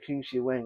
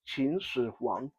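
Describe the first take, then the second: First: The name is said in an anglicized way. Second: The name is said in a Mandarin way. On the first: The speaker calls it wrong. "It's not how you're supposed to pronounce that" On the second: The speaker calls it right. "how the emperor's name is actually supposed to be pronounced"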